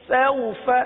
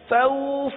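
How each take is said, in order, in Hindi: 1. स्वर छोटा, नरम है और खींचा नहीं गया है। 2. शब्द में स्वर लंबा खींचा गया है। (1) "बगैर खींचे बगैर झटका दिए नरमी के साथ पढ़ना है" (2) "तो ये खींच गया, और खींच खींचना नहीं है"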